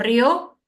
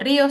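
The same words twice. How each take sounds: First: The stress falls on the o sound. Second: The stress falls on the i sound. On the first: It is written without an accent mark. "como la mayor fuerza de voz es en la O y no en la I" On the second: It is written with an accent mark. "Río sí, con tilde"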